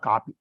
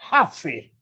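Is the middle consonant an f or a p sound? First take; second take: p; f. First: It is said with a p sound in the middle. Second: It is said with an f sound in the middle. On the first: This is the local railway-station form of the word. The speaker calls it wrong. "So it's not copy" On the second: This is the English form of the word. The speaker calls it right. "It's coffee"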